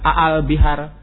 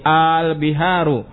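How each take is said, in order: First: The opening vowel is short and plain. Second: The opening vowel is drawn out long. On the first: It is a plain statement, not a question. The speaker calls it wrong. "bukan al bihar, salah" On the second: It asks a question. The speaker calls it right. "di lebur jadi satu"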